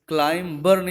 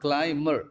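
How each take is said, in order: First: The b sound is pronounced before -er. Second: The b sound is silent before -er. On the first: The speaker calls it wrong. "क्लाइंबर नहीं पड़ेगा" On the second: The speaker calls it right. "वो भी क्लाइमर होगा"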